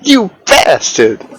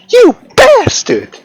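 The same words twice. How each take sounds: First: It is said in his normal voice. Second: It is said in a Kyle impression.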